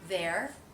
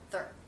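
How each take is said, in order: First: The word is said fully, without reduction. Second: The word is said quickly in reduced form.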